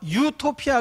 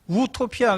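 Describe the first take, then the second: First: The word begins with a 'yu' sound. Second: The word begins with a plain 'u' sound. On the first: It means a good place. "유라고 발음할 때는 좋다는 뜻이고요" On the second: It means a place that does not exist. "우라고 발음하면 없다는 뜻입니다"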